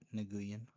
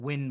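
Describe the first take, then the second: First: The name does not sound like 'win'. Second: The name sounds like the English word 'win'. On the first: The speaker calls it wrong. "not Nguyen" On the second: The speaker calls it right. "you pronounce that Win"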